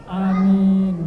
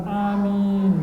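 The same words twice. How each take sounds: No difference in how they are said.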